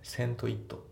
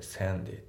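First: The t is clear and the words are separate. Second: The t is linked and voiced like d. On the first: The speaker calls it wrong. "線とit じゃなくて" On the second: The speaker calls it right. "t の部分がd で濁るんですよね"

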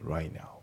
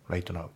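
First: The t at the end of 'right' is dropped. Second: The t at the end of 'right' is pronounced. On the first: The speaker calls it right. "right のT がね、抜けますね" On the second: The speaker calls it wrong. "じゃなくて"

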